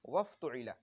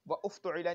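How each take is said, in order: First: Wa runs straight into the verb without a stop. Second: A glottal stop separates wa from the verb. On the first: The speaker calls it right. "बल्कि वफ़्तुइला" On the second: The speaker calls it wrong. "नहीं पढ़ेंगे"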